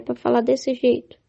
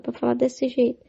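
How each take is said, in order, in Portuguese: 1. Fala-se em tom forte e firme. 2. Fala-se em tom suave e calmo. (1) "vai ter que falar num tom diferente" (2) "Outros é para falar mais calma"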